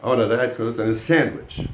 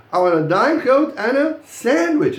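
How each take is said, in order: First: Lower, more matter-of-fact line, sandwich still stressed. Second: High, loud sentence with sandwich punched at the end; stress on sandwich. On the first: Teacher repeats the order for the class, lower-pitched, stressing sandwich. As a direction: keep it low, lean on sandwich at the end. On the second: Teacher models the third order for the class, high and loud, stressing sandwich. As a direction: pitch it up and hit sandwich hard. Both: Shown as a demonstration. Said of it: "he says the sandwich".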